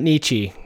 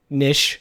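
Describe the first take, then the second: First: The word ends with a 'ch' sound. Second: The word ends with an 'sh' sound. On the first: The speaker calls it wrong. "It's not Nietzsche" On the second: The speaker calls it right. "With an SH"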